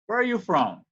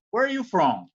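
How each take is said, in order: First: From ending on a full closed m sound; from with the final m clearly pronounced. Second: From said with a clipped, open ending; from cut off short, no closing m; from with the final m dropped; wrong final nasal. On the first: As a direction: lips shut hard on the m of from. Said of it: "é from". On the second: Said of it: "Não é, não é from, é from". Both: Shown as a demonstration.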